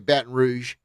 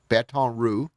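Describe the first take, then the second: First: The second word does not sound like roux. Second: The second word sounds like roux. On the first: This is how outsiders say the name. The speaker calls it wrong. "people say Baton Rouge" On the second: This is how locals say the name. The speaker calls it right. "like the roux that you put in to make the sauce"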